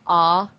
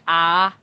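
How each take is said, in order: First: The vowel is rounded with the lips pursed. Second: The vowel is spread wide with unrounded lips. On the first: The speaker calls it right. "it really should have been like ah, because they have very rounded vowels" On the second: The speaker calls it wrong. "your ahs, were just a little too widespread"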